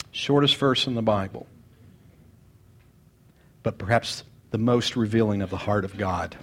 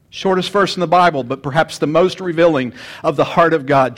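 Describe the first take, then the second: First: Quiet, lowered reflective delivery; soft first reading. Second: Louder, proclaiming the verse; fuller second reading. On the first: Pastor reading the verse softly before repeating it. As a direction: murmur it low, to yourself. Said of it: "repeats line softly then loudly". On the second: Pastor restating the verse boldly to the congregation. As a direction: lift it up to the whole room. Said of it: "repeats line louder". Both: Shown as a demonstration.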